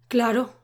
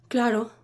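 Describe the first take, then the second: No difference in how they are said.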